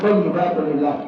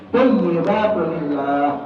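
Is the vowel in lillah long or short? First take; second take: short; long. First: The vowel in lillah is cut short. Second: The vowel in lillah is drawn out long. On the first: The speaker calls it wrong. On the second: The speaker calls it right.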